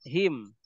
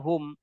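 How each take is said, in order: First: The pronoun is said with an i vowel. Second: The pronoun is said with a u vowel. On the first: The vowel before it is kasra or sukun. "itu dibacanya hi, hima, him" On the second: The vowel before it is damma or fatha. "maka dibacanya hu, huma, hum"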